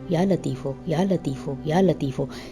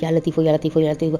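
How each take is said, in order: First: The phrase is said slowly, calmly and clearly. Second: The phrase is rushed out very quickly. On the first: The name is clearly heard and called upon properly. The speaker calls it right. "सुकून से पढ़िए" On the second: The name may come out wrong and change meaning. The speaker calls it wrong. "अक्सर लोग बहुत तेज़ी से पढ़ने की कोशिश करते हैं"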